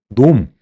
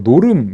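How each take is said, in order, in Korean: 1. 한 짧은 음절로 말해요. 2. 두 음절로 길게 늘여 말해요. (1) "이게 발음이 좀 그죠?" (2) "노름 이렇게 이제 풀어서 하는데 그것도 별로잖아요"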